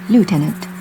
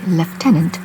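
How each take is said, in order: First: The first syllable has an oo sound. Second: The first syllable has a v or f sound. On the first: This is how it is said in the Americas. "friends in the Americas say lieutenant" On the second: This is how it is said outside the Americas. "So that's why we have the V sound. So that's why some of us in the world say lieutenant"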